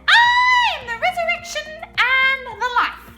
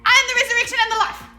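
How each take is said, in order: First: It is said at a normal pace. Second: It is said very fast.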